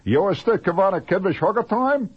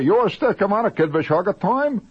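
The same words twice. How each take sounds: First: Mock secret code phrase; silly phrase. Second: High, loud comic nonsense phrase; mock secret code phrase; silly phrase. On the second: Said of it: "And say".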